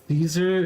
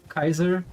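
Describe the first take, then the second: First: The name begins with an s sound. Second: The name begins with a k sound. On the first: This is the modern English way. The speaker calls it wrong. "in Latin it's not Caesar" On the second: This is how it was said in Latin. The speaker calls it right. "it's Kaiser"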